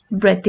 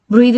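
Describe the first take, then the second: First: "Breath" with short e and hard final t; noun pronunciation. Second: "Breathe" with long ee and voiced d-like ending; verb pronunciation. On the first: Teacher introducing the noun, "Breath" with a short e. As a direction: say "Breath" as bret, short vowel. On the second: Teacher introducing the verb, "Breathe" with a long ee. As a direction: say "Breathe" as breed, long vowel. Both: Shown as a demonstration. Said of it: "breathe and breath are different in terms of pronunciation".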